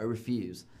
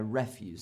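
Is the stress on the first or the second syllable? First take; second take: second; first. First: The stress is on the second syllable. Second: The stress is on the first syllable. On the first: It is a verb: to turn something down. "I refuse to go to work today because I'm tired and I don't want to" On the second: It is a noun: garbage or scrap. "People were just dumping their refuse"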